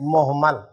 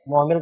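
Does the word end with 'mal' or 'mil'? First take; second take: mal; mil. First: The last syllable is said as 'mal'. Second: The last syllable is said as 'mil'. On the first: The speaker calls it right. "लफ्ज़ है मुहम्मल" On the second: The speaker calls it wrong. "मुहमिल गलत है"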